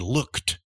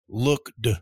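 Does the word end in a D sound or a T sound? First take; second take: T sound; D sound. First: The word ends in a T sound. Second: The word ends in a D sound. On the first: The speaker calls it right. "You say looked" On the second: The speaker calls it wrong. "you don't say looked"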